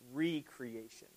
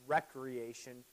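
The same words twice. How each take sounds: First: The first syllable sounds like 'ree'. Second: The first syllable sounds like 'rek'. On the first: It means creating something again. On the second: It means leisure activity.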